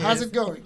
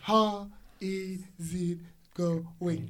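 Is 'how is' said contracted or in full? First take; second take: contracted; full. First: The first two words merge into one contracted word. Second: Each word is said fully and separately. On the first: The speaker calls it right. "it sounds like how's it going?" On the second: The speaker calls it wrong. "It's not like this"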